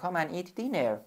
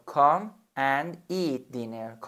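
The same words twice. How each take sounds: First: Said in the usual way. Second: "Come and eat dinner" said very slowly; slow model sentence. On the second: Shown as a demonstration. Teacher to student, a slow model sentence. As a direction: stretch each word for learners. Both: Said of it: "بیا و شام بخور".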